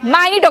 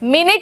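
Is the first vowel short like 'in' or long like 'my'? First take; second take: my; in. First: The first vowel is long, like 'my'. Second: The first vowel is short, like 'in'. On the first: Something very small. "మైన్యూట్ ఒకటి" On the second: A unit of time. "మినిట్ ఒకటి"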